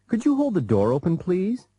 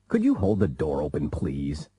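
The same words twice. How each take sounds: First: The request sounds polite. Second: The request sounds impolite.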